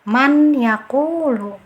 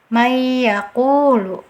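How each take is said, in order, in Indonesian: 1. N diucapkan dengan jelas, terpisah dari y. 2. N menyatu dengan y tanpa dengung sengau. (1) "yang keliru lagi dibaca jelas" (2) "bacaan yang keliru... tidak ada dengungnya"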